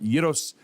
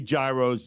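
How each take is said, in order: First: It has a Greek-style pronunciation. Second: It has a familiar English-style pronunciation. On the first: This is the authentic pronunciation. "gyros is the way you say it, I think, correctly" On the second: This is the form most listeners will recognize. "I say gyros, John, just so people know what we're talking about"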